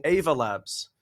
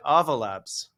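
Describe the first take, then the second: First: Ava with a long "ay" first vowel, as in "wave"; strong A. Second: Ava with an open "ah" first vowel; rhymes with lava. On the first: Shown as a demonstration. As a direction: say Ava as AY-vuh. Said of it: "with a strong A". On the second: Retold or imitated. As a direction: say Ava as AH-vuh. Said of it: "like lava".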